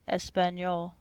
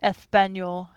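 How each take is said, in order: First: It is said with an English-speaker's accent. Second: It is said with a native Spanish accent.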